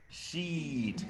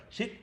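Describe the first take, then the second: First: "sheet" with a long stretched ee. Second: "shit" with a short clipped i. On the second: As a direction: say "shit" with a quick short vowel. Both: Shown as a demonstration. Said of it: "the difference between shit and sheet".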